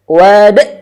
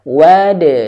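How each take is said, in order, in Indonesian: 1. Huruf d di akhir berakhir dengan hamzah. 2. Huruf d di akhir dilepas dengan pantulan. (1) "ada hamzah di akhir... Wad, nah, nggak boleh" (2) "harus dipantulkan secara langsung dan tidak ada hamzah di akhir"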